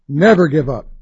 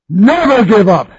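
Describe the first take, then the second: First: The voice is pitched at its lowest. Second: The voice is pitched at its highest. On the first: "voice going up a little bit each time" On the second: "voice going up a little bit each time"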